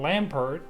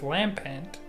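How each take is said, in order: First: The second syllable is said as 'pert'. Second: The second syllable is said as 'pent'. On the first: The speaker calls it wrong. "this entire time I've been calling this Pokemon Lampert" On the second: The speaker calls it right. "but it's Lampent"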